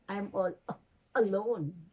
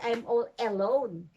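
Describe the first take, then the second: First: The first vowel of alone is a weak uh. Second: The first vowel of alone is a full vowel. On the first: The speaker calls it right. "but you say" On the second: The speaker calls it wrong. "You don't say"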